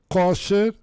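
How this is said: The first vowel sounds like o.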